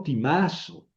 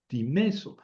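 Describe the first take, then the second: First: Timazo said with an a sound, tee-MAH-zo, as the error; wrong Greek form. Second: Timeso said with a clear e sound, tee-MEH-so; correct Greek form. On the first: Teacher shows students the wrong form timazo, set against the right one. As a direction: contrast timazo as the incorrect form. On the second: Teacher models timeso for Greek students, clear and careful. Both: Shown as a demonstration. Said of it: "no timazo".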